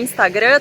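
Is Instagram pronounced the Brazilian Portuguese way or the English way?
Brazilian. Instagram is said with a Brazilian Portuguese pronunciation. This is the normal, accepted way to say it. "tá tudo bem"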